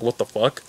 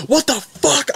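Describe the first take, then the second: First: Low, soft puzzled what the fuck, under the breath; first baffled reaction, quietly; quiet confused. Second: High, cracking what the fuck in disbelief; seeing the shot, a real shock; shocked outburst. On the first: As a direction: mutter it, not sure yet what happened. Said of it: "First it was like". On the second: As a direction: squeal it, suddenly horrified. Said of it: "I saw that and I said". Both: Retold or imitated.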